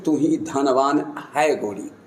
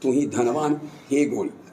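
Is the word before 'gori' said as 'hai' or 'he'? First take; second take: hai; he. First: The word before 'gori' is said as 'hai'. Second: The word before 'gori' is said as 'he'. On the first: Only you are the wealthy one, fair lady. "केवल तू ही तू धनवान" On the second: The fair lady is being addressed and told she is wealthy. "हे गोरी का समझ ... उनको संबोधित करते हुए"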